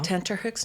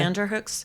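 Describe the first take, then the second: First: The middle consonant is a T sound. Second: The middle consonant is a D sound. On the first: The speaker calls it right. "it's tenter, not tender" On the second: The speaker calls it wrong. "not tender"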